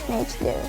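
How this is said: It is said the British English way. "British English pronunciation with"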